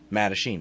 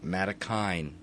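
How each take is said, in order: First: The middle consonant is a ch sound. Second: The middle consonant is a hard k sound. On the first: The speaker calls it right. "my listeners will now know it's Matachine" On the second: The speaker calls it wrong. "That's what I thought it was"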